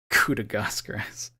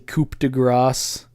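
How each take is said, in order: First: The first word ends without a p sound. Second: The first word ends with a p sound. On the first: The speaker calls it right. "Everyone says coup" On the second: The speaker calls it wrong. "You don't say coup de grace"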